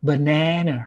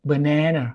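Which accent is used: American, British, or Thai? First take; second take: American; American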